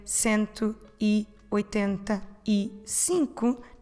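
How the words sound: Each word is said separately with small gaps. The speaker calls it wrong. "instead of separate each word"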